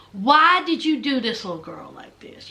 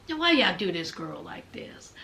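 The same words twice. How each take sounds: First: Low, deliberate scolding; voiced reproach. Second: Low, hushed reaction under the breath; whispered disbelief. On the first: Repeats the muttered reproach aloud. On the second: Retold or imitated. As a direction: whisper it as if to yourself. Acts out own muttered reaction while watching.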